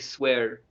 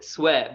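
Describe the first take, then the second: First: It is said with an American accent. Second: It is said without an American accent.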